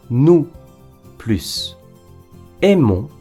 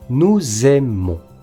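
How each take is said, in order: First: The two words are said separately, without linking. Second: A z sound links nous to aimons.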